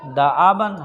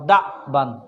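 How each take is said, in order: First: The glottal stop is followed by a short 'a'. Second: The glottal stop is followed directly by 'b'. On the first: This is one reciter's reading. "Hafs के लिए" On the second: This is the other reciters' reading. "बाक़ीन के लिए"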